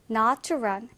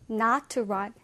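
No difference in how they are said.

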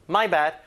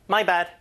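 No difference in how they are said.

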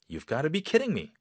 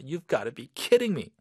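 First: It sounds amazed and disbelieving. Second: It sounds irritated and fed up.

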